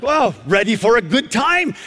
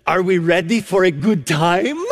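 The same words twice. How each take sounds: First: Higher, taken-aback echo of her phrase; amazed reaction. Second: Imitated grandmotherly Romanian accent, lifting at the end. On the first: Retold or imitated. Preacher reacting to the grandmother's question, amazed. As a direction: repeat it back, mildly astonished. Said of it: "I looked at her and". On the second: Grandmother to strangers at the elevator, imitated Romanian accent. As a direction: do an older lady's Romanian accent. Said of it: "she says in this unique accent".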